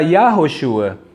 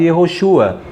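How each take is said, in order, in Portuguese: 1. A primeira vogal é um som 'ah' aberto. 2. A primeira vogal é um som 'eh' curto. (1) "Adonai é com patá, então seria Yahoshua" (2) "pronunciado Yehoshua"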